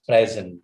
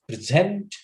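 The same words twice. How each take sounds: First: "present" as the noun, PREZ-ent; stress on first syllable. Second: "present" as the verb, pre-SENT; stress on second syllable. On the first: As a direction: say "present" with the weight on "pres-". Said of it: "if you say present, it becomes a noun". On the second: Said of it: "If you say present". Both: Shown as a demonstration.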